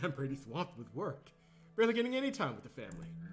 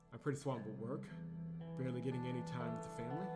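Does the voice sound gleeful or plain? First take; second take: gleeful; plain. First: It is read with barely disguised glee. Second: It is read plainly, without glee.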